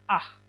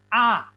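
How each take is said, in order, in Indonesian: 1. Vokal itu diakhiri dengan bunyi h yang terdengar. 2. Vokal itu diakhiri tanpa bunyi h. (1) "seharusnya kan ini bacanya ah. Bukan" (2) "Ini bacanya A. Karena hey di sini, H, kehilangan jati diri sebagai konsonan"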